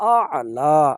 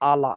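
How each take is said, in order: First: The word has a throaty catch in the middle. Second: The word flows smoothly with no throaty catch. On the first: The speaker calls it right. "এই আলার জায়গাত হবে আ'লা" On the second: The speaker calls it wrong. "অধিকাংশ মানুষ বলতেছেন রব্বিল আলা"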